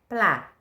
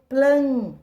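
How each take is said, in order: First: The vowel is open and oral, without nasal sound. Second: The vowel is nasal, with an n-like sound. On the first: "P L A. Plá" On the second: "Só que eu digo plan. Então, tem o sonzinho do N aqui"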